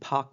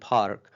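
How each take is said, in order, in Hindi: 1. व्यंजन से पहले आने वाला r साउंड छोड़ दिया जाता है। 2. व्यंजन से पहले आने वाला r साउंड उच्चारित किया जाता है। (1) "लेकिन अगर हम ब्रिटिश में बोल रहे हैं तो कॉन्सोनेंट से पहले आने वाला जो रा साउंड होता है उसको हम प्रोनाउंस नहीं करते" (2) "अगर अमेरिकन प्रोनाउंसिएशन में कर रहे हैं तो हम इस आर को प्रोनाउंस करेंगे"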